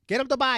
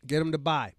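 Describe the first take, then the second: First: High, loud shouted hype; loud high pitched. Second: Said in the usual way. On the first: Acted. Hyping book sales.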